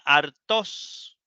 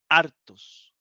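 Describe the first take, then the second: First: The stress is on the last syllable. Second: The stress is on the first syllable. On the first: The speaker calls it wrong. "si el acento fuera en la Omicron, esta final, diría hartos" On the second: The speaker calls it right. "pero no, dice hartos"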